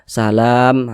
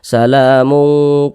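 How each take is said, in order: First: The word ends in 'm', followed by a stop. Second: The word ends in 'mun', running into the next. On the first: The reader stops at this word. "berhenti di huruf mim" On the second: The reading continues without stopping. "kita teruskan salamun qaulam mir rabbir rahim"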